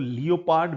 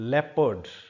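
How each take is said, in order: First: The word is said with three syllables. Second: The word is said with two syllables. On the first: The speaker calls it wrong. "बहुत सारे लोग इसको लियोपार्ड भी बोल सकते हैं।" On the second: The speaker calls it right. "Actually ये शब्द होता है लेपर्ड।"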